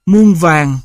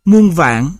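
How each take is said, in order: First: "muôn vàng" with an even tone on the second syllable; even-tone assimilation. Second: Said in the usual way. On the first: Shown as a demonstration. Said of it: "sang một thanh bằng". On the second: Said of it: "chuyển từ một thanh trắc".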